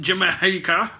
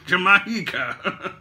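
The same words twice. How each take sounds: First: "Jamaica" drawn out with an "ee" middle, juh-MEE-ka; odd pronunciation. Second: "Jamaica" very slow with an "eye" middle, juh-MY-ka; drawn-out pronunciation. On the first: Joking about place names, "Jamaica" slowly as juh-MEE-ka. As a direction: stretch "Jamaica" slowly with an "ee" sound. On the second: Laughing at his own joke, "Jamaica" slowly as juh-MY-ka. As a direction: stretch "Jamaica" out through a laugh. Joking on place-name pronunciation. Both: Shown as a demonstration.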